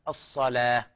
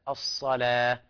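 Both takes have the same delivery.

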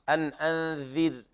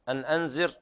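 First: The consonant sounds like th in 'this'. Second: The consonant sounds like a z. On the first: The speaker calls it right. "لابد من إخراج طرف اللسان يكون عند الثنايا العليا" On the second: The speaker calls it wrong. "الذال ليست زاي ... أن أنذر هذا خطأ"

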